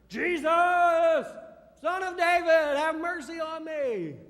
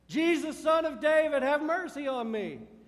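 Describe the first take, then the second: First: It is called out more loudly. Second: It is called out at normal loudness.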